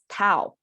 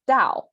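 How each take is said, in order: First: The word begins with a T sound. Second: The word begins with a D sound and falls. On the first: This is the form known in the West. "know this word as Tao, T A O, not D A O" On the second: This is the standard Chinese form. "the Chinese Orthodox Chinese pronunciation as Dao, this falling sound"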